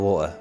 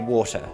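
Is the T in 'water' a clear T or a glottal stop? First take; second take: glottal stop; clear T. First: The T is replaced by a glottal stop. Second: The T in the middle is clearly pronounced. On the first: The speaker is talking quickly and casually. "if I'm like just talking quickly and I'm not enunciating properly" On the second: The speaker is speaking carefully and properly. "if I enunciate properly, I would say water"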